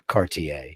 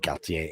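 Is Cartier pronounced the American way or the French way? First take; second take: American; French. First: The name is pronounced with an American accent. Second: The name is pronounced with a French accent. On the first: This is how people say it in Beverly Hills. "you're in Beverly Hills, they say Cartier" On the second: This is how people say it in Paris. "if you're in Paris, you know, they say Cartier"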